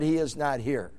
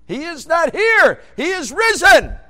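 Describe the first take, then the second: First: Said in the usual way. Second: High, slow, shouted proclamation; proclaiming. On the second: Acted. Preacher shouting the resurrection news to congregation. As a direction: cry it out to the whole church.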